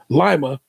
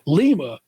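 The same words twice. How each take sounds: First: The first syllable sounds like 'lie'. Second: The first syllable sounds like 'lee'. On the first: It names the city in Ohio. "like the bean" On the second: It names the city in Peru. "Lima is in Peru. I'm used to that version of the word"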